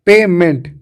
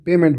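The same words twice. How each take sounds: First: पेमेंट in two firm parts, "pay-ment"; split into parts. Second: Said in the usual way. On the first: Shown as a demonstration. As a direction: separate पे from मेंट, giving each its weight. (पेमेंट को तोड़कर, पे और मेंट अलग-अलग) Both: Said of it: "पेमेंट बन गया".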